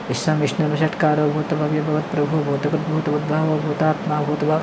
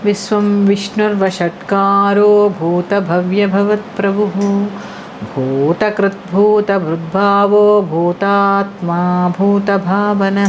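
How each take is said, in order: First: The verse is recited quickly and rushed. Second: The verse is recited slowly and carefully. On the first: The speaker calls it wrong. "అంతేగాని" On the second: The speaker calls it right. "అప్పుడు ఆ చదివితే అందం చూడండి"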